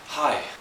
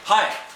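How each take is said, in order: First: The greeting is said in a calm way. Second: The greeting is said with intense energy.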